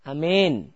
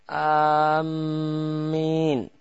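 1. Vokal panjangnya condong ke bunyi E. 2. Hamzahnya panjang dan mimnya bertasydid. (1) "pakai E, imalah" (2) "hamzahnya panjang namun mimnya tasydid"

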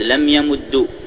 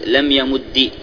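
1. الدال المدغمة تنتهي بالضمة. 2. الدال المدغمة تنتهي بالكسرة.

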